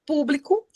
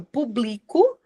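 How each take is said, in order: First: "público" stressed on the first syllable, PÚ-bli-co. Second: "público" stressed on the middle syllable, pu-BLI-co. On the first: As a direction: say "público" as the noun, PÚ hit first. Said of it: "a acentuação vai mudar o significado". ("público" com a primeira sílaba tônica, PÚ-bli-co) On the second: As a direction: say "público" as the verb form, stress moved onto BLI. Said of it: "Mas quando eu falo público". ("público" com a sílaba do meio tônica, pu-BLI-co) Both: Shown as a demonstration.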